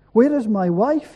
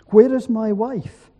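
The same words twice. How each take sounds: First: Raised, louder cry of desperation; restrained scream from a storyteller; mild narrated scream. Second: Anguished question, raised and louder; understated choked-up desperation, voice lifted; choked cry. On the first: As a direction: call out higher and louder, short of screaming. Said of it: "he screamed". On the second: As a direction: call out higher and louder, mildly distraught. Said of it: "he choked". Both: A narrator's reading.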